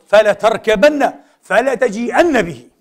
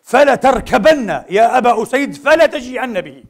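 First: Slow, a little raised, each word stressed; slow stressed "فلا تركبن فلا تجيئن به"; slow emphatic repeat. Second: Louder and higher, slow commanding order; slow, raised command from the Prophet; prophet's firm order. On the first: Shown as a demonstration. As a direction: repeat the command slowly and firmly. Repeating the Prophet's order. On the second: Acted. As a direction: give the order firmly, right away. بكلمة واحدة من فوره.

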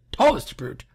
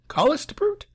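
First: Said in the usual way. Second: High rising tallest brute?; puzzled question. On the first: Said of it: "repeating line plainly". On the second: Shown as a demonstration. Reader questioning the poem's line, much higher. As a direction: ask tallest brute? in disbelief. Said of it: "repeating line questioningly".

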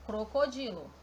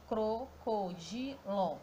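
First: Said in the usual way. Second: "crocodilo" very slowly, cro-co-di-lo, with gaps; sílaba por sílaba. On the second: Shown as a demonstration. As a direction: split "crocodilo" into four drawn-out syllables. ("crocodilo" separando as sílabas, bem devagar: cro-co-di-lo) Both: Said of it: "Já separando a sílaba".

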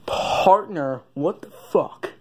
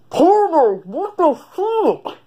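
First: Lower cowboy voice try. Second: Much higher, stretched-out cowboy take; high cowboy voice try. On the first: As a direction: settle it down into the cowboy's own voice. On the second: Sheriff trying a new voice, high and drawn out. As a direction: squeak it out like a slow sheriff. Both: Acted. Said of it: "That's closer".

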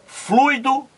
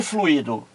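First: "Fluido" as FLUI-do, high and rising; fluido as diphthong. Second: "fluido" as flu-Í-do, falling tune; fluído with hiatus. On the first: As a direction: say "Fluido" in two syllables, stress on u. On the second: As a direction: say "fluido" in three syllables, stressed i. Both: Shown as a demonstration. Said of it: "Aqui está o problema".

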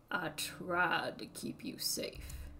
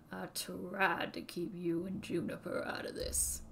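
First: "tried" stressed, whispered slowly; menacing whisper. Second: "you" stressed, voiced and plain. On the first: Acted. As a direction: lean on "tried" in a hushed threat. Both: Villain threatens children.

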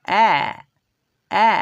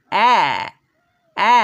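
First: অ্যা even shorter and weaker; whisper-light quick অ্যা; weak schwa অ্যা. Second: অ্যা said short but full; short vowel অ্যা. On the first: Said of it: "দুর্বলভাবে পড়তে গেলে বলতে হবে". (আরও ছোট, দুর্বল অ্যা) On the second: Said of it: "এটা আমরা পড়ি". (স্পষ্ট ছোট অ্যা) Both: Shown as a demonstration.

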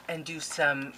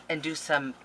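The two takes are said the same way.

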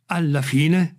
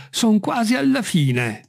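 First: Incredulous echo, rising at the end; near-shouted question. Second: High, slow, falling statement; Jupiter reporting progress. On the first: Master echoing the climber's news, almost crying out. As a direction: throw it back as an astonished question. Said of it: "urlò quasi Legrand". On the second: Servant out on the branch reporting to master, calling. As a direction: announce it from up high, drawn out. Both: A narrator's reading.

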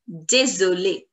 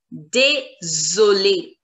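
First: "désolé" run together as day-zo-lay; joined-up French. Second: "désolé" slowly as day, zo, lay; syllable-by-syllable French. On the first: Teacher modelling the whole word, "désolé" joined up with a Z sound. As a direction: say "désolé" as one smooth word, S as Z. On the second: Teacher explaining single S, "désolé" slowly with a Z sound. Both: Shown as a demonstration. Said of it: "The sound of single S is Z".

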